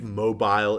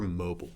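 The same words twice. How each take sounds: First: The word has a fancier, formal-sounding pronunciation. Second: The word has a plainer, casual-sounding pronunciation. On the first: It is the proper but pretentious way to say it. "probably the proper pretentious pronunciation" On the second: It is the more down-to-earth way to say it. "I prefer mobile. Mobile's more down to earth"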